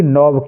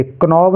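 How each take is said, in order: First: "नॉब" with no k; "नॉब", the K dropped; silent K. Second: "क्नॉब" with k sounded before n; faulty "क्नॉब", k'nob; wrongly voiced K. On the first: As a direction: correct it to "नॉब", straight on the n. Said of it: "के silent है". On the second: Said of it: "क्नॉब नहीं पढ़ेंगे". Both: Shown as a demonstration.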